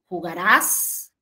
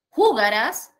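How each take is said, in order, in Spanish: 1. El acento está en la última sílaba. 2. El acento está en la sílaba del medio. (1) "Entonces ahí yo puedo cambiar la posición" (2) "Entonces ahí yo puedo cambiar la posición"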